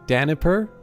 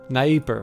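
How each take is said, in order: First: An extra vowel is said after the first consonant. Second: No extra vowel is said after the first consonant. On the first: The speaker calls it wrong. "I have always struggled with this pronunciation" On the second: The speaker calls it right. "there we go"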